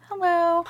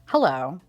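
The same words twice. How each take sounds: First: Squeaky high-pitched greeting; cutesy high voice; tiny high hello. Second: Said in the usual way. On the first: Pretend. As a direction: pipe it up high like a little toy.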